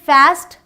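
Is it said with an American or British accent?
American. It is said with an American accent.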